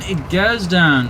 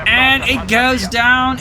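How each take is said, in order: First: Said in the usual way. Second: High, slow drawn-out play-by-play call; excited call. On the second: Real, not acted. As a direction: call the kill as it happens.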